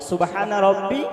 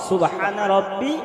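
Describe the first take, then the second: The two takes are said the same way.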